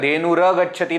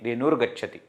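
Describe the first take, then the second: First: The r is followed by a full a vowel. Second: The r is a half sound without vowel. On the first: The speaker calls it wrong. "Not complete ra" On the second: The speaker calls it right. "Dhenur half"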